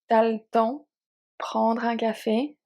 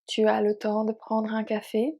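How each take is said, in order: First: Tu is shortened and le loses its vowel. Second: Tu and le are both said in full. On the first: "This one can be changed even more"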